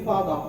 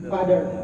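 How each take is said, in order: First: British accent, with the final r not pronounced. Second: American accent, with a d-like middle consonant. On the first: "Kalau orang Inggris asli dia itu R-nya nggak dibaca" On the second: "Orang Amerika ininya berubah jadi D"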